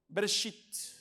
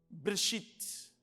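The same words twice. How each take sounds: The two takes are said the same way.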